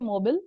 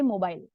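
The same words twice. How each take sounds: First: The word is said with an American pronunciation. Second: The word is said with a British pronunciation. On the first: "Americans say mobile" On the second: "Britishers say mobile"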